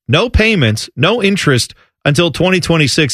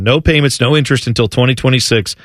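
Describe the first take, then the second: First: It is said slowly. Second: It is said quickly.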